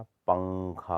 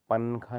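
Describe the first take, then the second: First: पंखा as slow "pang-kha"; correct velar nasal. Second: पंखा as "pan-kha" with plain n; wrong n sound. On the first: Teacher correcting it, पंखा with held ng. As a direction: draw out the ng in पंखा. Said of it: "होता है". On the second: Teacher showing the error, पंखा with plain n. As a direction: say पंखा with dental n. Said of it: "नहीं होता". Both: Shown as a demonstration.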